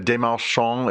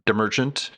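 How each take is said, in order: First: The name is pronounced the French way. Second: The name is pronounced the English way. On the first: "As Desmarchand" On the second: "it would be Demerchant"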